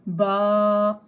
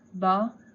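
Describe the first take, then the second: First: The vowel is drawn out long. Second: The vowel is short and ends softly. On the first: The speaker calls it wrong. "Stretching means ba" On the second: The speaker calls it right. "We'll simply recite them"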